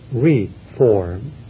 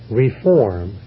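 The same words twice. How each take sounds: First: The stress is on the first syllable. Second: The stress is on the second syllable. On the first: It means to shape something again. "When you merely reshape, it's reform, and even with a hyphen in between" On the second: It means to correct something. "accent on the second syllable, when it's correction"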